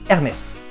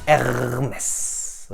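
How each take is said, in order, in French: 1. Le nom est prononcé rapidement. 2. Le nom est prononcé à une vitesse normale.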